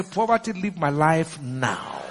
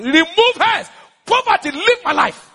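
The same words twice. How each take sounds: First: Slow, low, deliberate banishment; measured command. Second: High, loud declaration of banishment; forceful command. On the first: Preacher showing how to address poverty, slow low command. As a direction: draw it out low, word by word. Same command, slowed and lowered. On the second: Preacher ordering poverty out of his life, high forceful cry. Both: Shown as a demonstration.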